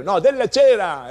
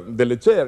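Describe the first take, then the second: First: "cera" stressed, higher and louder; emphatic correction. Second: "delle cere" said low and plain, a wrong take; "delle cere" low and offhand before the correction; wrong plural form. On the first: Correcting himself about the wax, emphatic right take. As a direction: punch "no, della cera" as the right word. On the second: Correcting himself about the wax, low wrong take. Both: Shown as a demonstration.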